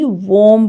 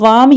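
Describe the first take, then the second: First: The vowel is a rounded 'o' sound. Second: The vowel is an open 'aa' sound. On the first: The speaker calls it right. "वोम पढ़ेंगे। डब्ल्यू ए को वो की sound देंगे" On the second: The speaker calls it wrong. "ये वाम ही गलत है"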